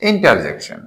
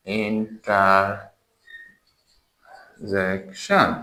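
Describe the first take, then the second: First: Said in the usual way. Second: Interjection drawn out extremely slowly, in separate syllables; very slow, soft breakdown of interjection by syllable. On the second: Shown as a demonstration. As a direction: softly stretch interjection, long gaps between syllables. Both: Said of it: "syllable করে".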